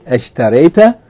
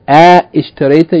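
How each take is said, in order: First: The first 'a' runs straight into 'sh'. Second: A separate 'i' vowel follows the first 'a'. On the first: The speaker calls it right. "you say ashtarayta" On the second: The speaker calls it wrong. "instead of saying a ishtarayta"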